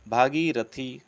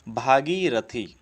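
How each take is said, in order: Both takes have the same delivery.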